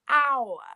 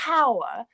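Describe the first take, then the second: First: The word begins directly with a vowel sound. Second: The word begins with a breathy h sound. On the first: The speaker calls it right. "we say hour, which is a vowel sound" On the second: The speaker calls it wrong. "we don't say hour"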